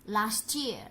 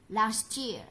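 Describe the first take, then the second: Both takes have the same delivery.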